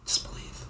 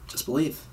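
First: Soft, voiceless whisper; hushed urging. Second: Said in the usual way. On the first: Pretend. Co-host urging a doubting fan to keep faith, whispered. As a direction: whisper it like a quiet mantra.

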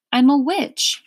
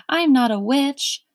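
First: "witch" in "I'm a witch" pushed up higher and louder, a different word; witch said the second way. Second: "witch" in "I'm not a witch" said plainly, the everyday word; "witch" plain and even, the common word; witch said the first way. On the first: Old lady correcting Milo on the word, pointed stress. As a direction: lift and stress "witch", set it apart. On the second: Old lady correcting Milo on the word, plain. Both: A narrator's reading. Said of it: "she laughed".

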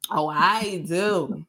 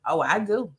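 First: OH, I DO drawn out slowly; savoring boast. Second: Said in the usual way. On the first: Real, not acted. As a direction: stretch each word of "Oh, I do" with relish. Savoring boast about cussing right.

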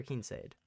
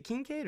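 First: "Kincaid" with the middle C turned to S; soft C Kincaid. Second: "Kincaid" with a hard C in the middle. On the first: Podcaster offering co-host the other option, soft C pronunciation. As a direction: say "Kincaid" as KIN-sade, with an S sound. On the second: Podcaster asking co-host which way is right, hard C pronunciation. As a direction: say "Kincaid" as kin-KADE, with a K sound. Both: Shown as a demonstration. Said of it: "is it Kincaid or Kincaid".

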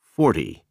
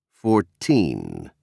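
First: "Forty" said like "FOR-dee"; D sound, first-syllable stress. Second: Put-on "Fourteen" with a clear T sound and weight on "teen"; clear T, stressed teen. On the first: Narrator models numbers ending in T Y, "Forty" with D sound and stressed start. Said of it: "with a D sound in the T Y syllable". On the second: Narrator models numbers ending in teen, stressing the end of "Fourteen" with clear T. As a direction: stress the second syllable of "Fourteen" with a crisp T. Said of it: "with a clear T sound and stress on the teen syllable". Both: Shown as a demonstration.

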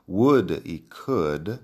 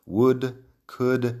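First: "Would" and "could" said slowly with no L sound; silent L. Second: "Would, could" said high and loud with no L sound; silent L. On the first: Teacher to students, slowly showing "Would" and "could" without L. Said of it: "la L no suena". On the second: Teacher insisting the L stays silent in "Would, could". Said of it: "pero la L no suena". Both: Shown as a demonstration.

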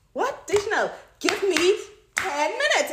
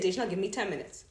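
First: High, slow, emphatic plea; exasperated husband. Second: Said in the usual way. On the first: Acted. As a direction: drag out the request in exasperation. Husband interrupted, acted exasperated. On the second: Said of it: "he said".

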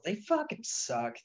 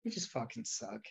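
First: Slow, higher, drawn-out emphasis; emphatic. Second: Softer flat repeat; muttered. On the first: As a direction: lean hard on fucking. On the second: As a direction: drop it quietly as an afterthought. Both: Real, not acted. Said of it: "That's all".

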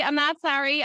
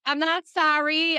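First: Mock Jersey defiance, louder, stress on not. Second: Mock Jersey defiance, louder, stress on sorry. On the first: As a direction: punch the word not, playfully defiant. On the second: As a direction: lean hard on the word sorry, playfully defiant. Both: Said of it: "talk like this".

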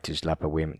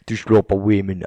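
First: Said in the usual way. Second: "slop" said as "shlop", louder; S pronounced sh. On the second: Retold or imitated. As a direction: mimic a Scot hushing "slop" into "shlop". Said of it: "he pronounces the ash".

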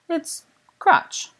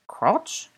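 First: Said in the usual way. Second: Put-on French-accented echo, pitched higher; questioning French accent, voice lifted at the end; strong French accent. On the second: A narrator's reading. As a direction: repeat it as a puzzled French nobleman, accent on. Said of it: "in a strong French accent".

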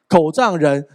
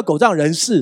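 First: “狗仗人”说到一半就断住，不说出最后的字; 像噎到一样把“狗仗人”戛然收住; 被噎断的成语. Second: Said in the usual way. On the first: Shown as a demonstration. (故意把“狗仗人”说成半截) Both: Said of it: "其实成语叫".

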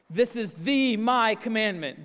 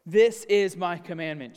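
First: "the my" pushed up and louder, every word weighted; emphatic Greek reading. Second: "This is my commandment" read out with weight on "This"; emphatic reading. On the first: Pastor demonstrating the Greek to listeners, strongly emphatic. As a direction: hit "the my" hard to show the Greek emphasis. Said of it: "It's the and my". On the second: Pastor reading Jesus' words to the congregation, emphatic. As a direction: lean into "This" and land the command firmly. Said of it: "Sounds emphatic, doesn't it?". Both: Shown as a demonstration.

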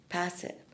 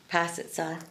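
First: "Pass it" said again much softer, almost to herself; softer echo. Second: Said in the usual way. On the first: Shown as a demonstration. Mother urging her son, softer repeat. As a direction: let "Pass it" fall away quietly. Coaching son in basketball metaphor.

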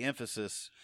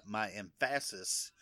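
First: Said in the usual way. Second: "emphasis" said slowly as em-FASS-is; "emphasis" misstressed on PHA, as an inside joke; emphasis on wrong syllable. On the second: Shown as a demonstration. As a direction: jokingly stress the middle syllable of "emphasis". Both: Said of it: "I put the emphasis on the wrong syllable".

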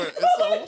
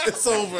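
First: "over" squeaked very high through a laugh; squealing high, laughing. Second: Said in the usual way. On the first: Shown as a demonstration.

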